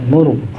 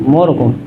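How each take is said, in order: No difference in how they are said.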